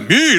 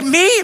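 First: It sounds proud and boastful. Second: It sounds amazed and disbelieving.

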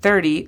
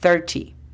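First: The t is soft, American style. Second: The t is hard, British style.

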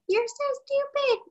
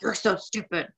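First: It is said in a soft, gentle tone. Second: It is said in a harsh, mean tone.

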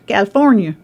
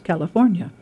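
First: The word is said in a Southern accent. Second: The word is said in a standard accent. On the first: This is how people in one region say it. "But then in Tennessee, it's California" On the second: This is how a dictionary voice says it. "they say, the word is California"

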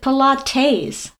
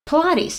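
First: The stress falls on the last syllable. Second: The stress falls before the last syllable. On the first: The speaker calls it wrong. "He calls it Pilates. Like T-A-Z-E" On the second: The speaker calls it right.

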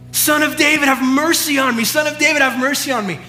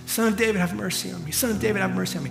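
First: It is shouted at a higher volume. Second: It is shouted at a lower volume.

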